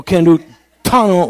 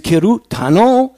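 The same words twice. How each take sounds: First: "Kerutano" drawn out slowly with a nasal "kan" start, higher and rising doubt; second try at the word. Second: "Kerutano" said slowly and higher, each syllable careful, ke-ru-ta-no; first try at the word. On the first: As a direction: stretch "Kerutano" slowly in an odd foreign voice, nasal first syllable. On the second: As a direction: sound out "Kerutano" slowly, pitched up like a question. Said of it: "Is it". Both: Shown as a demonstration.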